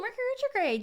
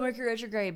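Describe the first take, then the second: First: It is said with an excited, delighted tone. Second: It is said with a dreading, gloomy tone. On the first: The event is something to look forward to. The speaker calls it right. "really it should be like, ooh" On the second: The event is something to fear. The speaker calls it wrong. "everyone's always like, oh"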